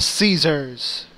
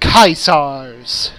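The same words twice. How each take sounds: First: It is pronounced with the usual English sounds. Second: It is pronounced with classical Latin sounds. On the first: The speaker calls it wrong. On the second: The speaker calls it right.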